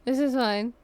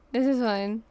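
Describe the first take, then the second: No difference in how they are said.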